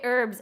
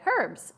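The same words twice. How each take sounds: First: It is said the American way, h silent. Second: It is said the British way, h pronounced.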